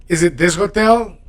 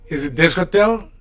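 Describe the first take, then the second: No difference in how they are said.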